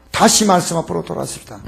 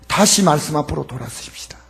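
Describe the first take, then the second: First: Said in the usual way. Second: Low hushed whisper of the call. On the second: Acted. Pastor quietly urging the church back to the Word, whispered. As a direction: breathe it as a whisper.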